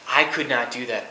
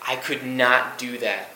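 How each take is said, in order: First: "I" stressed: I could not do that. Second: I could NOT do that, leaning on "not"; "not" pressed down and drawn out, slow and earnest; stress on not. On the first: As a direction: put the weight on "I", as if picturing yourself there. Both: Real, not acted.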